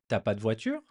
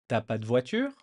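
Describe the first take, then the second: First: The 'ne' is dropped and 'tu' shrinks to 't'. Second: The 'ne' is dropped and 'tu' shrinks to 't'.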